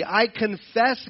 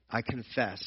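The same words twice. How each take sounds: First: I confess drawn out slow, higher and louder; earnest confession. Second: I confess said much softer and lower, humbly admitted; soft confession. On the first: Acted. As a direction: stretch I confess out, pleading and firm. Voicing a prayer of confession. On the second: Retold or imitated. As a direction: murmur I confess as a humble admission. Someone returning to apologize.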